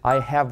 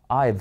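First: Two separate full words are pronounced. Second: The words are joined into one short syllable. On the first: "I have っていうのも" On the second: "喋るときはI've っていうふうにくっつきます"

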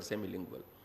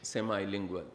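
First: It is said with a British pronunciation. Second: It is said with an American pronunciation. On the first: "I speak British English, so I prefer semilingual" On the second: "or in American English"

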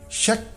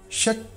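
No difference in how they are said.

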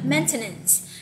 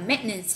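First: The middle t sound is clearly pronounced. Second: The middle t sound is dropped. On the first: This is the dictionary pronunciation. "thì cô thấy người ta phiên âm như cô đang phiên âm đây. Mình sẽ đọc là maintenance" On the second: This is how it is often heard in test recordings. "Người ta sẽ bỏ cái âm t đây ha"

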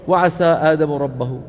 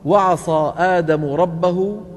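First: The s sound is light and thin. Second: The s sound is heavy and thick. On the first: The speaker calls it wrong. "لو رققها شو بتصير؟" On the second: The speaker calls it right. "وترقيق صاد عصا"

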